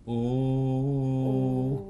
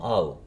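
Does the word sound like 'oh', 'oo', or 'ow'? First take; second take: oo; ow. First: The word is a plain 'oo' vowel. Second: The word is an 'ah' gliding to 'oo'. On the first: "как у просто" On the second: "Потом ау"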